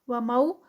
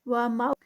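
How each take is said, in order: Both takes have the same delivery.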